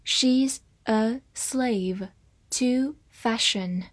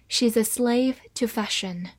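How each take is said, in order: First: Very slow, careful reading of "She's a slave to fashion"; slowed-down model sentence. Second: Said in the usual way. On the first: Shown as a demonstration. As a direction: draw it out slowly. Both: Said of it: "我们慢慢来读".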